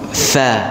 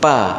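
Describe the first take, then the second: First: It starts with lip-on-teeth friction. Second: It starts with a closed-lips pop. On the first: The speaker calls it right. "bibir bawah ini berjumpa dengan gigi seri atas" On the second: The speaker calls it wrong. "jangan dibaca pa"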